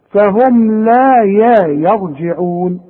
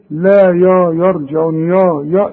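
First: Slow recitation, thin "ya" opening يرجعون; careful model of يرجعون with a front-vowel yaa; light yaa. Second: يرجعون opening with a thick, dark "yaw"; wrong heavy yaa. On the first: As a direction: draw out لا and keep يا light. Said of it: "الياء في القرآن يا". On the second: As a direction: mimic the learner thickening يا. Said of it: "الياء في القرآن يا مش يا". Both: Shown as a demonstration.

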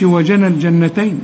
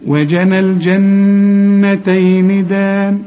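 First: "الجنتين" with a short n and no nasal hold; wrong, no ghunna. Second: Very slow chant with a long nasal hum on the n of "الجنتين"; held ghunna. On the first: Teacher shows what not to say, no nasal hum. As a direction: pass quickly over the doubled n in "الجنتين". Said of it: "ما تقولش". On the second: Teacher models the correct verse, slow nasal chant. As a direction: chant "وجنى الجنتين دان", sustaining the doubled n. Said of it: "لازم تغن". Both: Shown as a demonstration.

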